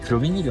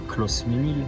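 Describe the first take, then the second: First: No S sound is heard before the M. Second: An S sound is heard before the M. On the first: The speaker calls it right. "on dit cloménil" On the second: The speaker calls it wrong. "on dit pas closménil"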